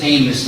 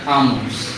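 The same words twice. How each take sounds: First: Amos loudly as AY-muss; preferred pronunciation. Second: Amos as AH-mohss, open first vowel; rejected pronunciation. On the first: Correcting for the listeners, Amos loudly as AY-muss. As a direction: say Amos firmly with "AY" first. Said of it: "it really is Amos". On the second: Showing listeners what it is not, Amos as AH-mohss. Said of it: "It's not Amos". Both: Shown as a demonstration.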